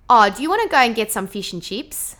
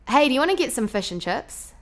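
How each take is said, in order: First: Lively Australian question, thin 'ee' in fish and chips; Australian twang with tight short I's; Australian accent. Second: Higher, chatty Kiwi question; New Zealand vowels, lazy flattened I; New Zealand accent. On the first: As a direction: ask it like an Aussie. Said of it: "an Australian would say something like". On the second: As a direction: ask it like a Kiwi, fish as "fush". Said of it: "a Kiwi or a New Zealander". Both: Shown as a demonstration.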